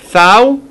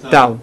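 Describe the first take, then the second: First: The word begins with a soft s sound. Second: The word begins with a hard t sound. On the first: The speaker calls it wrong. "ולא סאו" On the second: The speaker calls it right. "אלא טאו"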